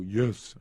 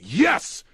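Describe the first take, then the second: First: It is said quietly and weakly. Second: It is yelled loudly and strongly.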